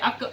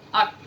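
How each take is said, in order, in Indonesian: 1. Konsonan akhirnya berakhir dengan gema tipis. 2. Konsonan akhirnya ditelan tanpa gema. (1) "dia tidak boleh ... karena dia bukan huruf qalqalah" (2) "kalau huruf kaf"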